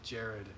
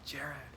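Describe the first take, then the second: First: It is said in a deep grown man's voice. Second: It is said in a higher female voice. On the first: "like that, and like in the grown man adult voice" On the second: "a female voice too calling my name like"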